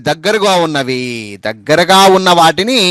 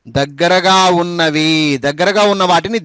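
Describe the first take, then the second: No difference in how they are said.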